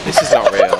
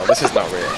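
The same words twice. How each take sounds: First: High breathless disbelief. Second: Lower, laughing through it; laughing disbelief. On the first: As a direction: gasp it out, stunned. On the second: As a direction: laugh it off in shock. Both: Real, not acted. Disbelief watching the fight.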